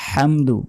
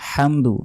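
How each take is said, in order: No difference in how they are said.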